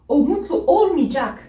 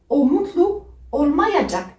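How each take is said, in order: First: The verb is said contracted, as 'olmicak'. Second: The verb is said in full, as spelled. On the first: "il le prononce le plus fréquemment" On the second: "comme vous le voyez"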